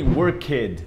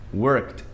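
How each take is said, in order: First: The ending is said as an extra syllable. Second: The ending is said without an extra syllable. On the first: The speaker calls it wrong. "Não tem worked, isso não existe" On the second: The speaker calls it right. "aquele E ele não é pronunciado"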